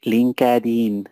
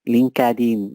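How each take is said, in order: The two takes are said the same way.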